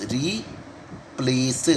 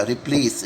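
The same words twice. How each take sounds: First: replace stretched very slowly and softer; slow soft drawn-out word. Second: Said in the usual way. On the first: Shown as a demonstration. Teacher writing the outline, slow soft replace. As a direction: draw out replace softly as you write it. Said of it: "teacher draws the word out". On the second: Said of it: "teacher says the word".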